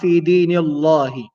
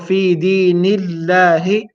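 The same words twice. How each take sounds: First: The L sound in Allah is heavy and full. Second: The L sound in Allah is light and thin. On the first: The speaker calls it wrong. "and not" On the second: The speaker calls it right. "light here, as we mentioned, because of the kasra that comes before it"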